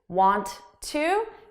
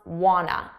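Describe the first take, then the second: First: Both words are pronounced separately and in full. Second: The words blend into one shortened, reduced word. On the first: "this is instead of want to" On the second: "Want to becomes wanna as a reduction"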